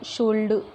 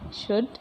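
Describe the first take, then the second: First: The l is sounded. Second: The l is silent. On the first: The speaker calls it wrong. "नहीं बोल पाते हैं, बोलने में ही गलत लगता है" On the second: The speaker calls it right. "Actual इसका प्रोनाउंसिएशन"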